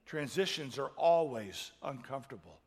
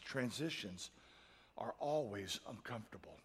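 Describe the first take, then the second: First: Always pressed louder in the restated line; stress on always. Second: Said in the usual way. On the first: Shown as a demonstration. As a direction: lean on always the second time.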